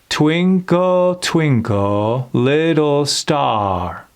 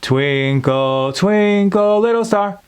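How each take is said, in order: First: The vowels are stretched long and open. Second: The vowels are short and clipped. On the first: The speaker calls it right. "We're just speaking it, but maintaining the openness of those vowels" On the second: The speaker calls it wrong. "instead of"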